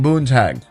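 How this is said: The a vowel sounds Americanized. The speaker calls it wrong. "They make it more American when they say"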